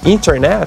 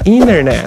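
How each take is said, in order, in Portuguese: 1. O T depois do N é claramente pronunciado. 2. O T depois do N é omitido. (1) "Em vez de você falar às vezes internet" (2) "você vai falar internet"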